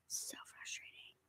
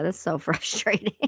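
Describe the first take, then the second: First: Breathy unvoiced whisper aside. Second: Said in the usual way. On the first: Real, not acted. Muttering to herself after the voice glitch, whispered. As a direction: hush it to yourself.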